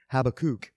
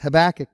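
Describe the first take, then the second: First: The name is said with a Hebrew pronunciation. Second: The name is said with an English pronunciation. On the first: "I guess that's how you say it in Hebrew" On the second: "I've always said it as Habakkuk"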